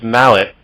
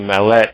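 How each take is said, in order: First: It is said with a plain English accent. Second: It is said with a French accent.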